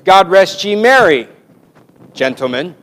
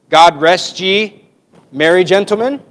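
First: There is a pause after merry. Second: There is a pause after ye.

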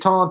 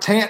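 First: The vowel sounds like the vowel in aw. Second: The vowel sounds like the vowel in ant. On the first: The speaker calls it right. "You taunt them" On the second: The speaker calls it wrong. "You don't taunt somebody"

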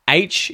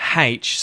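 First: It starts with a vowel, no h sound. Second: It starts with an audible h sound. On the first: "without the H at the start of it" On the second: "saying it with an H at the start of it"

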